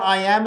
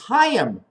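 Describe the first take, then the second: First: It starts with a vowel, no h sound. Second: It starts with an audible h sound. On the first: The speaker calls it wrong. "it's not I am" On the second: The speaker calls it right. "it's Hayam"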